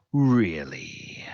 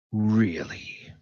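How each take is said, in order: First: Whispered Really, drawn out in contempt; disdainful whisper. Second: A flat, sceptical Really; scoffing disbelief. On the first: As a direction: hiss the disbelief under your breath. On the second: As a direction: scoff at the excuse, unimpressed. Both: Acted. Bazranik scoffs at Taskmaster.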